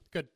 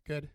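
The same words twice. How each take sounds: First: It is said in a curt, cold tone. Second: It is said with a tired sigh.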